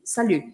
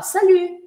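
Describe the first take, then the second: First: It is said in a grumpy, flat tone. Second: It is said in a cheerful, upbeat tone. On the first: The speaker is in a bad mood. The speaker calls it wrong. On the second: The speaker is in a good mood. The speaker calls it right.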